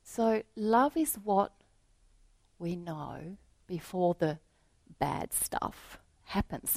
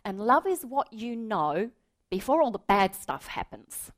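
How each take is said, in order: First: Reflective repeat. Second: Put-on higher earnest boy voice; child's earnest words. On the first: Real, not acted. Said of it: "Isn't that wonderful?". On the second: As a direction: say it simply like a small boy. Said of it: "He says".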